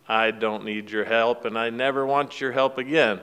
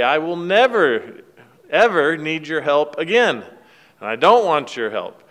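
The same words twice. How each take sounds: First: Son refusing his father's help, mildly disgusted. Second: Hammed-up yell after someone walking away; mock yell. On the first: Retold or imitated. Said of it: "he's very disgusted". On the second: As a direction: son shouting after his father, mock yell. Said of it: "he yells at him".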